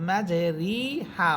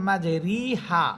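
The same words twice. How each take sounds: The two takes are said the same way.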